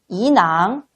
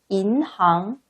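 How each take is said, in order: First: The n carries over into the second syllable. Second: The n stays with the first syllable. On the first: The speaker calls it wrong. "인항 읽으시면 안 되고요" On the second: The speaker calls it right. "반드시 인항"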